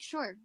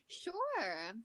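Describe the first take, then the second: First: It sounds like a genuine yes. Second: It sounds like a polite no.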